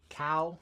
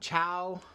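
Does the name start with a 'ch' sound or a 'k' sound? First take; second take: k sound; ch sound. First: The name starts with a 'k' sound. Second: The name starts with a 'ch' sound. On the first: This is how the speaker has always said it. "I've always called them Cow" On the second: This is how some other people say it. "some people call them Chow"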